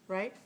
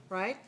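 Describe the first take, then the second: Both takes have the same delivery.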